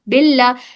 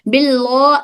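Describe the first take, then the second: First: The L is pronounced light and thin. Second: The L is pronounced heavy and thick. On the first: The speaker calls it right. "इसको बारीक पढ़े" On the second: The speaker calls it wrong. "नहीं"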